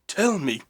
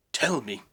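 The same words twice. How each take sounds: First: Much higher and louder desperate cry; desperate shout. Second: Urgent plea to the spirit, a bit louder; pleading. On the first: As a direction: scream the plea at the spirit. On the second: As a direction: beg him to answer. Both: Acted. Scrooge begs the spirit twice.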